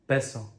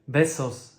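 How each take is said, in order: First: The word ends with a vowel, no S. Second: The word ends with an S sound. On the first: "S not being pronounced at all" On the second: "S not being pronounced at all"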